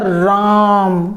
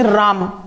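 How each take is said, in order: First: The vowel in 'ra' is held twice as long. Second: The vowel in 'ra' has normal length. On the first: "रा के उच्चारण में लिए गए समय को दो गुना करना" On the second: "बोलेंगे राम"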